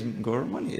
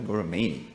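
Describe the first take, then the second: First: Gauramani ending in MUH-nee; correct name. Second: Gauramani ending in MAY-nee; mispronounced name. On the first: Student insisting on their own name, Gauramani said as gora-MUH-nee. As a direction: say Gauramani with a short vowel, gora-MUNNY. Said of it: "my name is Gauramani". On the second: Student rejecting the repeated mistake, Gauramani said as gora-MAY-nee. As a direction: say Gauramani with a long A, gora-MAINY. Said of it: "it's not Gauramani". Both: Shown as a demonstration.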